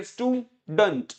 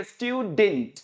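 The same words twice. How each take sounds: First: Slow स्टूडेंट as STOO-dunt; first correct version. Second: स्टूडेंट as STYOO-dint; second correct version. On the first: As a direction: model स्टूडेंट with weak 'dunt'. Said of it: "दो तरीके से बोला जाएगा". (स्टूडेंट, 'स्टू-डंट' जैसा) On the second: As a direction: model स्टूडेंट with 'styu' and short 'dint'. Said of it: "या फिर बोलिए". (स्टूडेंट, 'स्ट्यू-डिंट' जैसा) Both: Shown as a demonstration.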